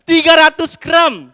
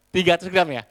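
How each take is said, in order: First: High, loud insistent repeat. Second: Said in the usual way. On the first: Acted. Husband repeats the protein demand to his wife, loud and high. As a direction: bellow it at her.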